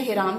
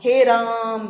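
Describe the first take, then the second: First: Said in the usual way. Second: हे राम with the हे stretched long; drawn-out Hey Ram. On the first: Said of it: "तो नहीं बोल दिया था". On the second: Shown as a demonstration. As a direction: let हे hang long before राम. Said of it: "क्या निकला था?". (हे राम को खींचकर बोलना)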